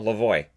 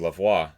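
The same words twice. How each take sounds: First: The name is said with a non-French pronunciation. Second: The name is said with a French pronunciation. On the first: Someone corrects the assumed pronunciation. "somebody will go, no, no" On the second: The speaker assumes French origin. "he's going to be French. It'll be Lavoie"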